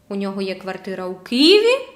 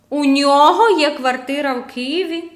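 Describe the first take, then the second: First: The pitch rises on the word Києві. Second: The pitch rises on the word нього. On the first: The question is whether it is in this city or another. "У Києві чи в іншому місті, in another city?" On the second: The question is whether this person or another owns it. "У нього чи в іншої людини?"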